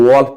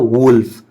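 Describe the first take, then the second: First: The vowel sounds like the o in hot. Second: The vowel sounds like the u in put. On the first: The speaker calls it wrong. "बहुत सारे बच्चे गलती करते हैं, वॉल्फ पढ़ देते हैं" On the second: The speaker calls it right. "Actual में इसका प्रोनाउंसिएशन होता है वुल्फ"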